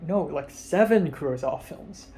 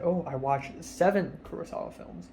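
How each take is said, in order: First: Seven said with a clear push, correcting; correcting stress on seven. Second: Said in the usual way. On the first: Retold or imitated. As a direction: lean on the word seven to set him straight. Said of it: "And I'm like". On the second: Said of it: "And then I said".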